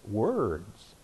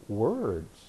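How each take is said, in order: First: Quiet repeat. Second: Quiet answer. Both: Real, not acted.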